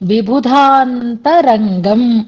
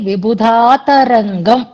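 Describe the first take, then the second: First: An 'n' sound is said before 'ta'. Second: No 'n' sound is said before 'ta'. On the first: The speaker calls it right. "విబుధాంతరంగం అనేటటువంటి మాటని" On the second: The speaker calls it wrong. "విబుధాతరంగం అని చదివినట్లుగా వినిపించింది నాకు"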